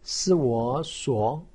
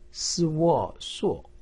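First: The pitch rises from mid to high. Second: The pitch falls sharply from high. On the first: "二声" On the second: "四声"

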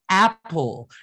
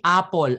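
First: The first vowel falls between ah and eh. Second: The first vowel is a plain ah or eh sound. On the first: The speaker calls it right. "it's in between your ah and your eh" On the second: The speaker calls it wrong. "Instead of saying apple"

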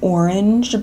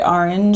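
First: The first vowel sounds like 'or'. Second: The first vowel sounds like 'ah'. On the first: "Sometimes if I like realize I'm doing it, I'll say like" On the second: "I say like with an A"

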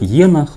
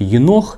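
First: The stress is on the first syllable. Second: The stress is on the second syllable. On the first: The speaker calls it wrong. "ударение на первый слог" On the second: The speaker calls it right. "правильно, все-таки"

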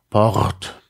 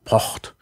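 First: The R is a rolled trill at the back. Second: The R is a voiceless scraping sound. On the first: "das Zäpfchen R" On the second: "den stimmlosen Uvularen Frikativ"

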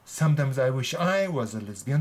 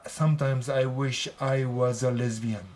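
First: The second 'I' is stressed and said higher. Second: The second 'I' is said without stress. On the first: "でも今回の場合は…って言ってますね。" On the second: "普通だったら…愛を強く言わない。"

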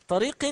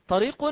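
No difference in how they are said.

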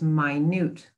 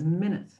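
First: The stress is on the second syllable. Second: The stress is on the first syllable. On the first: It means very small. "which means something that is very small" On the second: It means sixty seconds. "A minute is 60 seconds"

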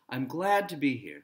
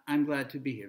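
First: The word glad is stressed. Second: The word glad is not stressed.

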